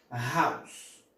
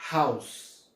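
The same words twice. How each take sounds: First: "House" said haws again, rising, ending on the S; silent final e. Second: "house" said haws, no final e sound; silent final e. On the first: Teacher repeats house for students, ending on the S. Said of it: "nós vamos pronunciar como". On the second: Teacher shows students house ends on the S. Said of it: "ele não é pronunciado". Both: Shown as a demonstration.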